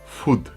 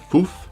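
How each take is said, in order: First: The word ends with a d sound. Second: The word ends with a soft th sound. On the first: "or you can pronounce it fud" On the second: "You can pronounce it futh"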